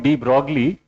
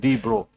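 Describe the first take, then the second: First: The name is said with an Indian pronunciation. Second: The name is said with a French pronunciation. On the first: The speaker calls it wrong. "Normally we call it de Broglie. Indians call it like that" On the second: The speaker calls it right. "the pronunciation is de Bro because he was a Frenchman"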